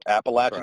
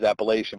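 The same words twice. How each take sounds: First: It is said the way North Carolinians pronounce it. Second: It is said the way Pennsylvanians pronounce it. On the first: The speaker calls it right. "So Appalachian" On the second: The speaker calls it wrong. "up here, anytime we talk about that word, it's it's always Appalachian"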